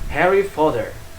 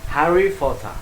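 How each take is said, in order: First: It is spoken with an American accent. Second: It is spoken with a British accent. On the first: "Di Amerika dibaca dengan Harry Potter" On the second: "Kalau di Inggris Harry Potter"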